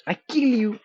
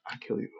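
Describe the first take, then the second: First: High, loud mock-menacing yell; mock threat yell. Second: Said in the usual way. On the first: Streamer warning an intruder off the stream, mock threat yell. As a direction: shout it as a playful threat.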